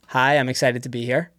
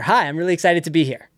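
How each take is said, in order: First: It is said flatly, without excitement. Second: It is said with clear excitement.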